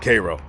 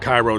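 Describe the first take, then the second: First: It is said unlike the Egyptian city's name. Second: It is said like the Egyptian city's name. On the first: The speaker calls it right. "It's pronounced Cairo" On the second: The speaker calls it wrong. "don't you dare pronounce it Cairo to anybody that lives out here"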